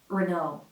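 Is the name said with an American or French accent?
American. It is said with an American accent. "with the American R"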